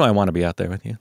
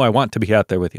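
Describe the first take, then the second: First: 'Want to' is run together as 'wanna'. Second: Both words of 'want to' are clearly enunciated. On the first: "not wanna" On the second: "she says like want to very clearly"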